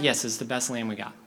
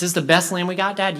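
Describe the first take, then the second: First: Lightly voiced father, lower pitch; low, patient dad's answer; reassuring dad. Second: Lightly voiced boy asking for reassurance; louder, pressing question to Dad; doubting boy. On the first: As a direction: answer a fretting son evenly. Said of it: "And the dad's like". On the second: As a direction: ask Dad as a worried kid. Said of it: "one boy who comes up to the father".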